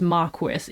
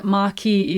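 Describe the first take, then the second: First: Marquis said the English way, as "MAR-kwis"; UK English pronunciation. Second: Marquis said the French way, as "mar-KEE"; French pronunciation. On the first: Reviewer giving the British alternative for the title, English pronunciation. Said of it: "I think in U K English". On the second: Reviewer noting how the audiobook says the title, French pronunciation. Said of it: "is the French pronunciation". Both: Shown as a demonstration.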